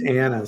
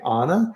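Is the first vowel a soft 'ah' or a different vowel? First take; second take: different vowel; soft ah. First: The first vowel is not a soft 'ah'. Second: The first vowel is a soft 'ah'. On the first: The speaker calls it right. "it's Anna" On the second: The speaker calls it wrong. "had a uh, soft ah"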